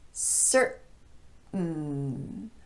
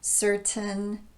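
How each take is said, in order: First: The T is a glottal stop. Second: The T is a clear T. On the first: "So it looks like this" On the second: "a normal T sound in place of the glottal stop"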